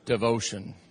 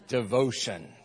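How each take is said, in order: First: The word is said flatly with little energy. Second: The word is said loudly with lively energy. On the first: The audience lacked passion when reading. The speaker calls it wrong. "Can I just tell you what you sound like?" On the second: The speaker truly means the word. The speaker calls it right. "let's say the definition like we mean it"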